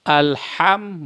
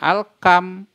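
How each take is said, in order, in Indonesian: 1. Huruf tengah itu bunyi 'h' yang lembut. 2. Huruf tengah itu bunyi 'k' yang keras. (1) "Alham bukan alkam" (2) "bukan alkam"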